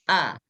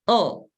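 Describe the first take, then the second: First: The vowel is open, with the mouth opened wide. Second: The vowel is rounded, with the mouth barely opened. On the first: The speaker calls it right. "Buka, lihat" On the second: The speaker calls it wrong. "jangan begini, tidak dibuka"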